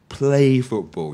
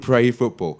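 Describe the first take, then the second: First: The first word is said with an L sound. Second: The first word is said with an R sound. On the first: The speaker calls it right. "but really people play football" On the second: The speaker calls it wrong. "many many Hong Kong people say, "I pray football.""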